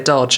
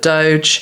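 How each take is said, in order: First: It is said like the word dodge. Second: It is said with the vowel of doge. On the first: The speaker calls it wrong. "I want to say Dodge" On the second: The speaker calls it right. "but Doge"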